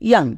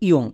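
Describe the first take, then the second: First: The vowel sounds like an open 'ah'. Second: The vowel sounds like a rounded 'oh'. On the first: "ইউ এর জন্য আকার" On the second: "এই শব্দকে আরেকভাবে উচ্চারণ করতে পারি"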